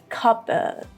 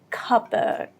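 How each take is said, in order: Both takes have the same delivery.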